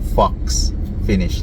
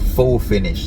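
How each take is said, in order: First: The first word ends with a 'ks' sound. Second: The first word ends in a plain 'oh' vowel. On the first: The speaker calls it wrong. "not fox finish like what I was saying before" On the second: The speaker calls it right. "It's a it's a faux finish"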